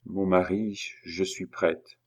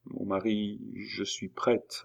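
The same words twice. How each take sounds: First: Said in the usual way. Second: Soft, slow, tearful murmur; hushed, hesitant tearful assent; stammered through tears. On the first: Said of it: "j'attends que tu me dises". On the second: A narrator's reading. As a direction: falter it very softly, close to tears. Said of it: "balbutia Julie parmi ses larmes".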